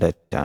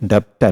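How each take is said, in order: First: No consonant sound comes before the t. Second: A b or p sound comes before the t. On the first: The speaker calls it right. "ഡെറ്റ് ആണ്" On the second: The speaker calls it wrong. "ഡെപ്റ്റ് അല്ല"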